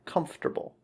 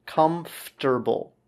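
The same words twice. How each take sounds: First: Said in the usual way. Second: Comfortable stretched out slowly, KUM-FT-er-bul; slow "Comfortable" with F and T run together; slow FT demonstration. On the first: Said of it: "it's pronounced F T R". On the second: Shown as a demonstration. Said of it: "Make sure the F and T are together".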